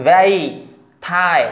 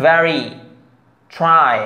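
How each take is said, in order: First: "very, try" as "vey, tie", no R; R dropped. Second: "very, try" with a clearly sounded R; R pronounced. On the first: Teacher showing learners the mistake, R left out. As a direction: swallow the R in "very" and "try". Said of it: "এরকম বলেন তাহলে কিন্তু হবে না". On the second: Teacher modelling correct R for learners, clearly sounded. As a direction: say "very" and "try" separately, R fully voiced. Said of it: "try এই উচ্চারণ করতে হবে". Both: Shown as a demonstration.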